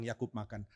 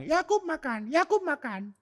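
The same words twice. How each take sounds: First: Said in the usual way. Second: High squeaky parrot voice saying "Yakub makan"; mock cockatoo voice, much higher; cockatoo mimicking speech. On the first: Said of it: "dia sering dengar orang bilang". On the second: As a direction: squawk it like a talking bird. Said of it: "dia akan bilang".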